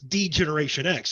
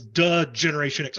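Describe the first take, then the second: First: The first word is said as the letter 'dee'. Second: The first word is said as a short 'duh'. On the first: This is the later way the name is said. "now it's D Generation X" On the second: This is the early way the name was said. "he says "duh Generation X" a lot"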